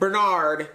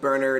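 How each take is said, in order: First: The name is pronounced the non-British way. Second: The name is pronounced the British way. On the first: The speaker calls it right. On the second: The speaker calls it wrong.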